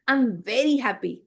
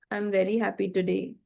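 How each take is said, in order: First: Expressive happy. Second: Said in the usual way. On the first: Shown as a demonstration. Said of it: "Look, my expressions". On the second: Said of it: "it doesn't look like even if I'm happy".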